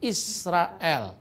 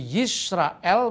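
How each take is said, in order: First: The word begins with an I vowel sound. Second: The word begins with a Y sound. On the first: This is the East Syrian Aramaic form of the name. "di Syria Timur dipakai dialek Shema Israel, bukan Yisrael" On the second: This is the Hebrew form of the name. "Jadi Yisrael menjadi Israel"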